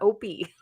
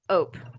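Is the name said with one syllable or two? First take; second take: two; one. First: The name is said with two syllables. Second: The name is said with one syllable. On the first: The speaker calls it wrong. "it's not Opie" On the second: The speaker calls it right. "it's Ope"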